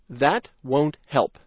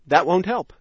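First: The sentence is spoken slowly. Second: The sentence is spoken fast. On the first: "first slowly" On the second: "Now fast"

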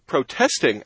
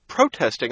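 First: The stress is on the second syllable. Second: The stress is on the first syllable. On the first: The speaker calls it right. "instead of" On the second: The speaker calls it wrong. "I frequently hear VOA newsreaders say something like"

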